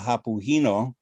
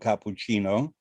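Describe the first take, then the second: First: The c sounds are said as breathy h sounds. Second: The c sounds are said as hard k sounds. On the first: The speaker sounds like someone from Tuscany. "the letter C becomes an H" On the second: The speaker sounds like a standard Italian speaker. "instead of a cappuccino"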